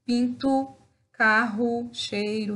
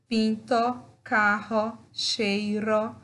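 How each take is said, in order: First: "pinto, carro, cheiro" said "pintu, kahu, cheiru"; spoken pronunciation with u. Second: "pinto, carro, cheiro" ending in a clear o sound; spelling pronunciation with o. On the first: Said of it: "muitas vezes nós queremos falar". (final "o" pronunciado como u, como se fala) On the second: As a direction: end "pinto", "carro", "cheiro" with a full o as written. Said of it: "Da mesma forma". (final "o" pronunciado como o, como se escreve) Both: Shown as a demonstration.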